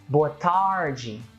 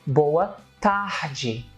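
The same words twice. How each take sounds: First: The R in tarde sounds like English R. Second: The R in tarde sounds like an H.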